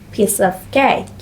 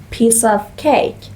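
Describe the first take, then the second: No difference in how they are said.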